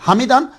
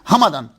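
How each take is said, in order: First: The vowel after the m is an e sound. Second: The vowel after the m is an a sound. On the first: "मीम के नीचे जेर" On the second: "मीम के ऊपर जबर"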